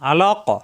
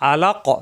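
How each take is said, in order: First: The word ends on a bare, echoing 'q' sound. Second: The same.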